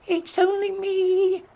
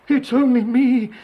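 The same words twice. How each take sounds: First: Very high, drawn-out squeak; tiny goat piping up in a squeal; squeaky little goat. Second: High, loud goat voice; middle goat voice. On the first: Youngest goat answers the troll, squeaking. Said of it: "squeaked the youngest billy goat Gruff". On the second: Second goat answers the troll, high loud voice. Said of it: "said the second billy goat Gruff". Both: A narrator's reading.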